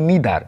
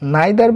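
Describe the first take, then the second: First: The first vowel sounds like 'ee'. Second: The first vowel sounds like 'eye'. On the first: "both আর correct" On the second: "এটা দুটোই উচ্চারণ করতে পারো"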